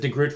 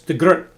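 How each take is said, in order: First: The name is said with an English-style pronunciation. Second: The name is said with a Dutch-style pronunciation. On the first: The speaker calls it wrong. "I'll mispronounce it de Groot" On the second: The speaker calls it right. "I was told this, it's de Groot"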